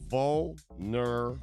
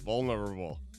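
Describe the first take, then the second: First: The word is said slowly and carefully. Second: The word is said quickly and run together. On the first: "I have to say it like that" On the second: "Speed it up"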